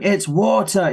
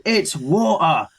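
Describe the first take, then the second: First: High insistent "water" with the T sounded; retold sibling yell, crisp T in "water"; mock child's yell. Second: Drawn-out "water" with the T dropped; higher, slow retort, glottal stop in "water"; mock child's retort. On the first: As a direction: imitate an arguing kid, hitting the T in "water". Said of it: "Faye's yelling at him". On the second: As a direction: imitate a stubborn kid saying wa'er for "water". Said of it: "screaming at each other".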